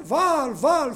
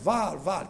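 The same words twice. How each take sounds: First: Loud high cry of Baal's prophets; shouting to Baal. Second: Mock call to Baal. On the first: Retold or imitated. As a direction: call out the idol's name at full voice. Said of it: "φωνάζανε". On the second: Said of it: "και φωνάζεις".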